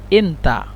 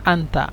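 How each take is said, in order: First: It is pronounced the colloquial Egyptian way. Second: It is pronounced the Standard Arabic way. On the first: "لكن في اللغة العامية" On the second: "في اللغة الفصحى"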